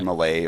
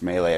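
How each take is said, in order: First: "Malay" said as muh-LAY; "Malay" pronounced muh-LAY, stressed at the end; variant pronunciation. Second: "Melee" said as MAY-lay; "Melee" pronounced MAY-lay, as in the game; common pronunciation. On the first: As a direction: say "Malay" with a weak first syllable. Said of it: "I've heard, heard Malay". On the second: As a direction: say "Melee" with an ay in both syllables. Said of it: "heard it pronounced Melee". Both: Shown as a demonstration.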